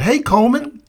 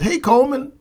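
First: High greeting with a rising end; friendly sergeant. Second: High, bright-pitched greeting from the smiling sergeant; friendly sergeant. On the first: Recruiter repeats his greeting to Coleman, high and rising. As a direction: call his name warmly, lifting at the end. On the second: Recruiter greets Coleman at the bench, friendly and high. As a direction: greet him like an old friend. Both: Retold or imitated.

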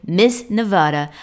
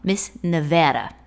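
First: "Nevada" with "ah" in the middle, nuh-VAH-duh; mispronounced Nevada. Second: "Nevada" with short "a" as in "cat", nuh-VA-duh; corrected Nevada pronunciation. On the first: Real, not acted. Host introducing her guest, "Nevada" said as nuh-VAH-duh. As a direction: say "Nevada" to rhyme with "enchilada". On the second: Shown as a demonstration. Host correcting herself, "Nevada" said with the "a" of "cat". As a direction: stress a flat-A middle syllable in "Nevada". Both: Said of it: "let me correct myself".

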